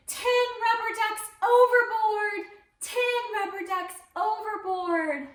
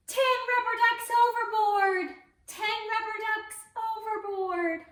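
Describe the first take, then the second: First: High, loud alarmed cry from the deck; captain's shout. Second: High, loud call to repeat; captain's shout for the kids. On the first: Acted. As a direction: call it out like a panicked captain. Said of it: "the captain shouted". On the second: Shown as a demonstration. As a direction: shout it out for the children to copy. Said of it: "Can you say that at home".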